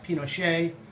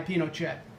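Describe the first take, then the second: First: The name is said with the North American pronunciation. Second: The name is said with the Chilean pronunciation. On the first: "very common in North America and Europe" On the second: "I will kind of try to stick to the Chilean pronunciation"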